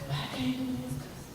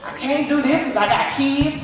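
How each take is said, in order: First: Quiet excuse. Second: Louder excuse. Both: Retold or imitated. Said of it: "I'm giving all these excuses".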